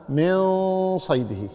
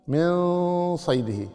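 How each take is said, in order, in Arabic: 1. النون مُخفاة مع غنّة باقية. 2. النون مُخفاة مع غنّة باقية.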